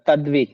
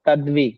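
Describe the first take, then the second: The two takes are said the same way.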